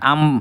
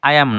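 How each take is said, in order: First: It is said as one contracted syllable. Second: It is said as two full words. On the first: The speaker calls it right. "আম হইতে পারে এবং উচ্চারণে সেটা আম ফাইন" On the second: The speaker calls it wrong. "না"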